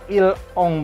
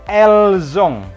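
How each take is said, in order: First: The words are said without a linking z sound. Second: The words are joined by a linking z sound. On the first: The speaker calls it wrong. "bukan il ong" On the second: The speaker calls it right. "tapi elzong disambung"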